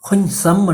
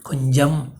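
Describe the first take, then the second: First: The middle consonant is not a j sound. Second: The middle consonant is a soft j sound. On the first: The speaker calls it wrong. "என்றும் வராது" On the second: The speaker calls it right. "ஜன்னு தான் வரும்"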